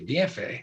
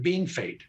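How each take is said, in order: First: The name is said with a French-style pronunciation. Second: The first syllable sounds like the English word bean. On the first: This is the name as it is spelled. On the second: This is how the people who live there say it. "the locals have always called it Beanfait. That's the way they pronounce it"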